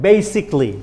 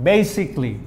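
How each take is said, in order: Both takes have the same delivery.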